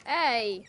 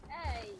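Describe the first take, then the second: First: Loud hey, calling out. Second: Quiet, soft hey. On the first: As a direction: call out to get attention. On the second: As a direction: say it softly, close by. Softer answer. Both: Pretend.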